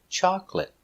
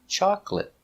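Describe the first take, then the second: Both takes have the same delivery.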